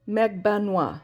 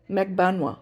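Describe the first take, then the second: First: The name is said with three syllables. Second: The same.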